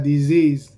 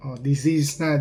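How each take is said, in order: First: Disease thrown out loud with a falling end; stress on disease. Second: Said in the usual way. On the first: Real, not acted. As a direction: bark out disease as the point. Repeating a word for emphasis.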